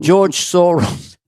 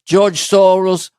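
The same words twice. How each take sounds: First: Slow, drawn-out mobster mumble; a lightly voiced Godfather enforcer; Luca Brasi impression. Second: Slow, weighty mobster delivery; a touch of Godfather gravitas; Luca Brasi take. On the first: Thanking the don slowly, a hint of Luca Brasi. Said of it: "I wasn't my best Luca Brasi". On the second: Acted. Second take for the producer, slow mobster voice. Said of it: "Use either take".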